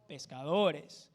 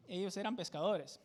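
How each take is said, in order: First: Pescadores drawn out slowly, syllable by syllable; teacher stretching out pescadores so it sinks in; slow stressed pescadores. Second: Said in the usual way. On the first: Shown as a demonstration. Teacher stressing pescadores slowly for the class.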